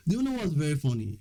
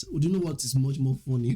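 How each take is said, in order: First: Said in the usual way. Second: Strong Nigerian English accent. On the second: Shown as a demonstration. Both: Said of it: "I'm actually speaking in Nigerian accent".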